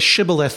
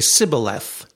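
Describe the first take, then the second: First: The word begins with an sh sound. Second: The word begins with a plain s sound. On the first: The speaker belongs to the friendly group. "the Ephraimites could not say shibboleth" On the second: The speaker belongs to the enemy group. "They could only say sibboleth"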